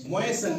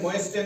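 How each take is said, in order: First: मोएसन with S straight into the last syllable; silent T. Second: मोएस्टन with an audible T after S; T pronounced. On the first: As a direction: drop the T in मोएसन. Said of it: "पढ़ते हैं". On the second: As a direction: sound the T in मोएस्टन. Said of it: "नहीं पढ़ते हैं". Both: Shown as a demonstration.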